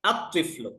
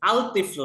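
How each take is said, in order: First: The l merges into a doubled t sound. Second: The l sound is pronounced before the t. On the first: The speaker calls it right. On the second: The speaker calls it wrong.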